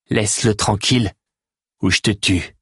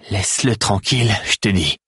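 First: Steady, stress on Laisse-le, level menace; Théo warning the Grax off the stranger, firm threat. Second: Théo repeating his demand to the Grax, insistent and firm. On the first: Threaten him calmly, weight on Laisse-le. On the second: Insist, leaning on tranquille. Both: A narrator's reading. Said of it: "La voix de Théo était étrangement ferme".

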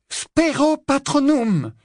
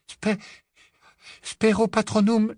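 First: Very high, loud, drawn-out spell cry; forceful incantation. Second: High, broken first try at a spell; faltering incantation. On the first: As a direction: cast the spell slowly with full conviction. Second, successful casting. (incantation criée avec force, aiguë et prolongée) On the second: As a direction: stumble on the first syllable, then try the spell. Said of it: "mais ce fut sans effet". (incantation hésitante, aiguë) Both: Acted.

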